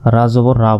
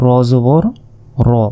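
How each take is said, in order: First: The letter is said with a clear 'a' vowel. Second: The letter is said with a rounded 'o' vowel. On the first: The speaker calls it wrong. "অনেকে এটাকে বলে রা, রা জবর রা বলে, এটা কিন্তু ভুল" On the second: The speaker calls it right. "এটা হচ্ছে র জবর র"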